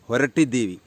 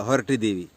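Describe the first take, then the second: No difference in how they are said.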